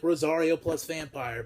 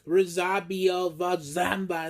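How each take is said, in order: First: The title's words come out smooth and clear. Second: The title's words come out mangled and slurred. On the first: The speaker calls it right. "would just be like Rosario plus vampire" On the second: The speaker calls it wrong. "But they're like"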